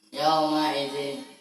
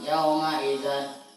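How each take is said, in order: First: The last word ends with an 'in' sound. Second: The last word ends with an 'an' sound. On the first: The speaker calls it right. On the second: The speaker calls it wrong.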